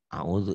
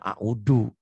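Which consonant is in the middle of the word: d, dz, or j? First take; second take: dz; d. First: The middle consonant is a dz sound. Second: The middle consonant is a plain d sound. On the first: This is how someone who has studied says it. "kalau belajar" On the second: This is how Sundanese speakers say it. "orang Sunda"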